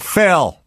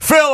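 First: The name is called in a mild voice. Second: The name is called in a mean voice.

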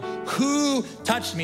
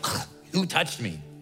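First: It sounds earnest and searching. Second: It sounds annoyed and irritated.

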